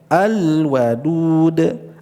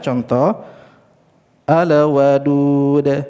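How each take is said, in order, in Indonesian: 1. L-nya mengalir halus tanpa pantulan. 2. L-nya memantul, seperti ada tambahan vokal. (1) "di situ lepas, tidak terlalu terpantulkan" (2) "itu ada pantulan"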